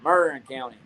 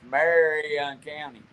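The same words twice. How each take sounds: First: The name is said in the local pronunciation. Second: The name is said in the standard pronunciation. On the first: "everybody around here pronounces it Marion County" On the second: "I can't hardly pronounce it. It's Marion County"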